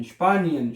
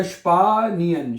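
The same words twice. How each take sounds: First: Said in the usual way. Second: स्पानियन slowly, first vowel held long; स्पानियन stretched into separate syllables; slow sounding-out. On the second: Shown as a demonstration. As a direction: teach स्पानियन as "shpaa-ni-en". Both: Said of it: "क्या बनेगा".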